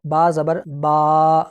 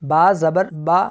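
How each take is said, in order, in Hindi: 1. आख़िरी स्वर लंबा खींचा जाता है। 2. आख़िरी स्वर की लंबाई बीच की है, एक समान। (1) "अगर मैं इसको लंबा करके पढ़ूं तो वो ऐसे पढ़ा जाएगा" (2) "इनको झटका नहीं दिया और ना ही मैंने इनको लंबा करके पढ़ा, बल्कि इनकी दरमियानी हालत में पढ़ा है"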